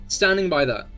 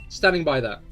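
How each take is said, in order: The two takes are said the same way.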